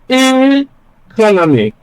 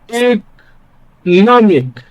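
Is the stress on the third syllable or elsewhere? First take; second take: elsewhere; third syllable. First: The stress is not on the third syllable. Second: The stress is on the third syllable. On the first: The speaker calls it wrong. "it sounds strange" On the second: The speaker calls it right. "This sounds more natural"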